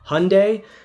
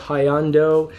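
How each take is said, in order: First: The name ends like 'Sunday' with an H. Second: The name does not end like 'Sunday'. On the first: The speaker calls it right. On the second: The speaker calls it wrong.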